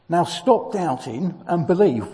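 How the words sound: It is said in an impatient, exasperated tone.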